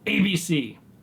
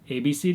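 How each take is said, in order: First: The letters are said in a stern, sharp tone. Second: The letters are said in a warm, upbeat tone. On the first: The dog is being corrected. "that's negative. That is a verbal correction" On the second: The dog is being encouraged. "that's positive, the inflection of your voice"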